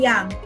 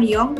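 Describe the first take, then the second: First: The vowel sounds like an 'a'. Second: The vowel sounds like an 'o'. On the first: The speaker calls it right. "tetapi yang" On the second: The speaker calls it wrong. "bukan Yong"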